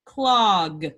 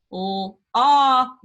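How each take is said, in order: First: Said in the usual way. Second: Clog drawn out slowly; stretched word. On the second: Shown as a demonstration. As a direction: draw out clog. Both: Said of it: "the last one says".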